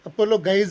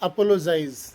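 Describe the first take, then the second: First: It has a hard g before the last syllable. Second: It has a j sound before the last syllable. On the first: The speaker calls it wrong. "ಅಪೋಲೋಗೈಸ್ ಅಲ್ಲ" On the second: The speaker calls it right. "ಈ ಶಬ್ದದ ಉಚ್ಚಾರ ಅಪೋಲೋಜೈಸ್"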